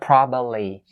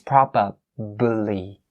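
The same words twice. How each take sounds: First: The middle b sound is left out. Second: The middle b sound is clearly pronounced. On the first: The speaker calls it wrong. "Don't miss the b sound here ... Wrong. It's not probably" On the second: The speaker calls it right. "It's probably"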